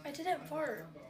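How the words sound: It sounds disappointed.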